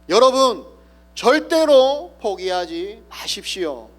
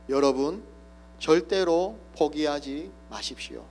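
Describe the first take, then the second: First: It is shouted with full force. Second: It is said somewhat louder.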